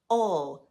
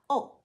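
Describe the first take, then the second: First: The vowel is stressed and drawn out. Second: The vowel is short and unstressed. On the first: The speaker calls it right. "indicates that the vowel it is over is stressed. So the word for fork is pronounced o" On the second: The speaker calls it wrong. "not o"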